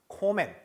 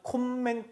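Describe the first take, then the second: First: The m sound is single and short. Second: The m sound is doubled and held long. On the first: The speaker calls it right. "어떻게 하냐? 코맨" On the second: The speaker calls it wrong. "m이 두 개거나 n이 두 개일 때 발음은 콤맨, 큰맨 하지 않습니다"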